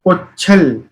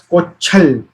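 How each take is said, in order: First: The middle consonant is a ch sound. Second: The same.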